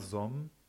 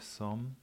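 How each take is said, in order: First: The s at the start is voiced. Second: The s at the start is voiceless. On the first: The speaker calls it wrong. "keine stimmhaften S, also nicht sor, som" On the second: The speaker calls it right. "sondern sor, som"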